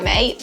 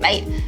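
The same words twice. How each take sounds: First: It is said in a friendly, relaxed way. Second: It is said in a harsher, aggressive way.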